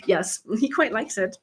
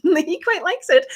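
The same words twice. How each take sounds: First: Said in the usual way. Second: Laughing. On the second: Real, not acted. Host teasing viewers about her husband's nickname, laughing. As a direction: repeat it higher and slow, laughing through the words.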